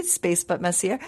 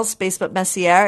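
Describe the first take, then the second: First: Lightly French-accented "Messier", final r softened away; amateur French accent on "Messier". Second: Said in the usual way. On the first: Shown as a demonstration. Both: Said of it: "do it in a French accent".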